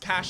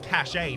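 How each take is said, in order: First: The word is said as one syllable, cash. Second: The word is said as two syllables, cashay. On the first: "It's not pronounced cash everywhere" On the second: "It's also apparently pronounced cachet to a lot of people"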